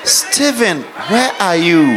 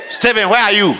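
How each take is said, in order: First: The voice sounds soft and gentle. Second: The voice sounds harsh and hard. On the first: The speaker calls it right. "You have to say" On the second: The speaker calls it wrong. "The tone of your voice is too harsh"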